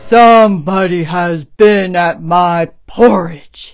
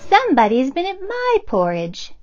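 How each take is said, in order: First: It is said in a deep, gruff bear voice. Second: It is said in a medium-pitched bear voice.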